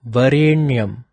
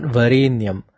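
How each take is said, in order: First: "Varenyam" with tongue on the roof of the mouth for n; careful "Varenyam" with pressurized retroflex n. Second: "Varenyam" with tongue touching the teeth for n; wrong-way demo of "Varenyam" with dental n. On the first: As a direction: press the n of "Varenyam" against the hard palate. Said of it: "It should be pronounced as". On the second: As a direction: keep the n of "Varenyam" light, against the teeth. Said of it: "If your tongue is touching your". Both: Shown as a demonstration.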